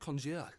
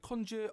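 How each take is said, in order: First: It is said with a French accent. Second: It is said with a plain English accent.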